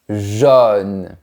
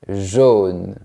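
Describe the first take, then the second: First: The vowel is an open O sound. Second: The vowel is a more closed O sound. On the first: "on prononce comme la lettre O de manière ouverte" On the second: "à Paris, ils ont tendance à fermer un peu plus la bouche"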